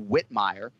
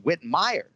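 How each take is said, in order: First: The stress is on the first syllable. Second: The stress is on the second syllable. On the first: The speaker calls it wrong. "you think you see Whitmire" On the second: The speaker calls it right. "So emphasis on the second syllable"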